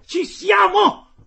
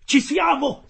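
First: A much higher, louder, slow drawn-out "Ci siamo!"; full yell. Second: A high, loud cry of "Ci siamo!"; excited shout. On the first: The harpooner, poised to strike, bellows slow and even louder. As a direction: stretch the shout out at the top of the voice. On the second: The harpooner cries out to the crew as the whale nears, high and loud. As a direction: yell it as the whale comes in range. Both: Acted. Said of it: "urlava allora il canadese".

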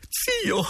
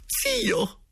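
First: Put-on very high, cracked old-woman cry; old lady exclaiming. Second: Put-on very high, cracked old-woman cry; old lady exclaiming again. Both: The lady crying out to her dead uncle, very high. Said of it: "esclamò la signora Geltrude".

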